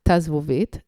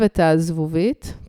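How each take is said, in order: First: It begins with one short contracted syllable, ta. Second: It begins with two separate syllables, et ha. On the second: "it means et ha"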